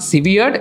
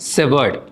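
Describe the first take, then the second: First: The first part sounds like the word severe. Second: The first part sounds like the word sever. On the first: The speaker calls it wrong. "நிறைய பேர் சிவியர்ட் அப்படின்னு நினைப்பாங்க" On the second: The speaker calls it right. "it's called as severed"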